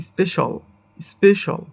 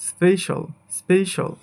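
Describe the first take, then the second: Both takes have the same delivery.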